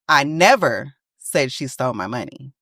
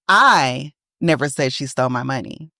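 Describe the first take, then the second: First: The stress is on "never". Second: The stress is on "I".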